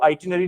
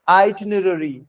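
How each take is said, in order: First: The middle r sound is left out. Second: A light r sound is touched in the middle. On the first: The speaker calls it wrong. "इसको आइटिनरी नहीं पढ़ना है" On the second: The speaker calls it right. "इसमें छोटा सा र आता है बीच में"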